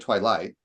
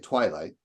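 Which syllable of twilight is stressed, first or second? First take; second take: second; first. First: The stress is on the second syllable. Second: The stress is on the first syllable. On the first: The speaker calls it wrong. "We don't say twilight" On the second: The speaker calls it right. "We say twilight. So I think we all agree that twi is the stressed syllable there"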